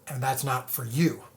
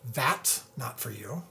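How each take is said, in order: First: The stress falls on the word "you". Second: The stress falls on the word "that's".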